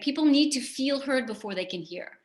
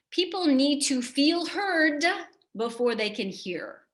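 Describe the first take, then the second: First: Said in the usual way. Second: People need to feel heard said slowly, heard stressed; slow emphatic key line. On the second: Shown as a demonstration. Coach stating the key concept to the audience, slow and emphatic. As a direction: lay out each word of People need to feel heard before they can hear slowly. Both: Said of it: "Here's an important concept".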